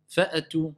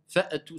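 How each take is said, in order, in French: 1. Une voyelle courte se fait entendre après le coup de glotte. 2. Une voyelle courte se fait entendre après le coup de glotte.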